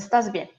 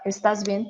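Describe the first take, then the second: First: It is said as a flat statement. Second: It is said as a rising question.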